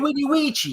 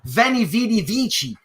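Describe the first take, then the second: First: The words begin with a W sound. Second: The words begin with a V sound. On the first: The speaker calls it right. "It's W, man" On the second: The speaker calls it wrong. "it's not the v- Veni Vidi Vici"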